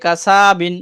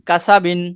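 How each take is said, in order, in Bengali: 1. মাঝের সিলেবলের স্বরটা লম্বা করে টানা হয়। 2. মাঝের সিলেবলের স্বরটা ছোট রাখা হয়।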